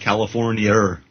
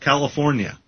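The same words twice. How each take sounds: First: The word ends with an added R sound. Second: The word ends on a plain vowel. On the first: "An Aussie would say"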